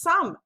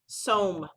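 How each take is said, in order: First: The vowel is a short U sound. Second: The vowel is a long O sound. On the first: The speaker calls it right. "This word is some" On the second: The speaker calls it wrong. "that doesn't sound right"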